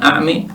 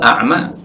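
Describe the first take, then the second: First: The final vowel leans toward an e sound. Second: The final vowel is a plain open a. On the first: It means blind in the heart. "Yang pertama a'mi pakai imalah" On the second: It means blind in the eyes. "yang kedua a'ma dengan fathah biasa"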